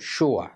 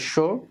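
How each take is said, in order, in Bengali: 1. এটি একটি যোগ করা 'uh' গ্লাইডে শেষ হয়। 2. এটি একটি একক দীর্ঘ স্বরে শেষ হয়। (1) "পরেরটা এগুলো হচ্ছে বেশি স্ট্যান্ডার্ড" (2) "একটা হলো শো"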